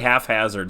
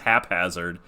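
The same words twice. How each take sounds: First: The first syllable sounds like 'half'. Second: The first syllable sounds like 'hap'. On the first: The speaker calls it wrong. "You say haphazard sometimes" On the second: The speaker calls it right. "it's haphazard"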